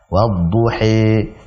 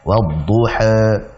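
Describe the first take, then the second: First: The final vowel is a full e sound. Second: The final vowel falls between a and e. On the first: "Imalah kubra itu yang wadduhi" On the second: "imalah sughra atau biasa yang disebut dengan taklil"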